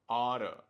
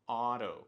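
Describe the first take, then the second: First: The words blend into one reduced word, oughta. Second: The same.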